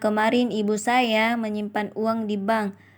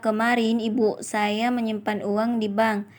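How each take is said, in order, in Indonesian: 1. Tekanan ada pada saya. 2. Tekanan ada pada ibu. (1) "Kalimat ketiga mendapatkan tekanan pada kata saya" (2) "kalimat kedua mendapatkan tekanan pada kata ibu"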